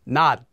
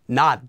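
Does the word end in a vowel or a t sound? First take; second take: t sound; t sound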